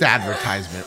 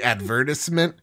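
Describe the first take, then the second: First: It is pronounced in an American way. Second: It is pronounced in a British way. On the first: The speaker calls it right. "It's advertisement" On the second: The speaker calls it wrong. "We're not in Britain"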